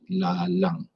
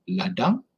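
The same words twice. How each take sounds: First: "lalang" with l replacing the d of ladang; substitution error. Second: "Ladang" said with a clear d; correct reading. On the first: Teacher imitates a misreading: "lalang" instead of ladang. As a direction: say "lalang", swapping d for l. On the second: Teacher contrasts the words: correct "Ladang" with a d. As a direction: read "Ladang" correctly, d sound in the middle. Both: Shown as a demonstration. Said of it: "is instead of lalang".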